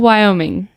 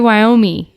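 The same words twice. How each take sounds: First: The final 'ing' sound is fully pronounced. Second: The final 'ing' sound is left off. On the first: The speaker calls it right. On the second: The speaker calls it wrong.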